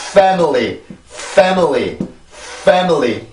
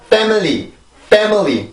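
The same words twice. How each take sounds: First: "family" starting on a flowing, airy F; airy correct F. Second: "family" with a stopped P-like F, pemily; blocked wrong F. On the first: Teacher models the right start, airflow-led F. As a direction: push air through the F of "family". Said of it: "이렇게 소리를 만들어 주셔야 됩니다". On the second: Teacher shows what to avoid, blocked F mispronunciation. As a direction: start "family" blocked, without airflow. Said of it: "막힌 상태로 소리가 나면 안 돼요". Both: Shown as a demonstration.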